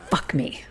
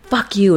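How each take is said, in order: First: Hushed, unvoiced near-whisper after a long pause; retold surrender. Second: Mild mock anger, firmly voiced; understated retort, no shouting; retold defiance. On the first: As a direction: imitate giving in, very softly. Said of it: "And then she goes". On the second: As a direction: imitate a woman rebuffing her lover. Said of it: "And she goes".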